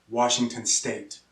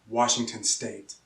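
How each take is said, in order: No difference in how they are said.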